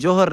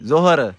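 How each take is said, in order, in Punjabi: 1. ਸ਼ਬਦ j ਦੀ ਆਵਾਜ਼ ਨਾਲ ਸ਼ੁਰੂ ਹੁੰਦਾ ਹੈ। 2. ਸ਼ਬਦ z ਦੀ ਆਵਾਜ਼ ਨਾਲ ਸ਼ੁਰੂ ਹੁੰਦਾ ਹੈ। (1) "ਨਹੀਂ ਜੋਹਰ" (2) "ਸਹੀ ਪੜੋ ਜ਼ੋਹਰ"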